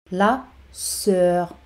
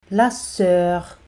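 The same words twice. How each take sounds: First: "La", short pause, "sœur"; teacher's spaced-out "La ... sœur"; word by word. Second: Said in the usual way. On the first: Shown as a demonstration. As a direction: separate "La" from "sœur" for learners. Teacher models word, then separates it.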